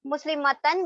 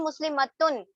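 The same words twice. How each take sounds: First: مسلمتن ending in a short a, "-tan"; "an" sound closing مسلمتن. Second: مسلمتن ending in a short u, "-tun"; "un" sound closing مسلمتن. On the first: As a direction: say مسلمتن as muslimatan. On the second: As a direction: say مسلمتن as muslimatun. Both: Shown as a demonstration. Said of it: "مسلمتن بن گیا".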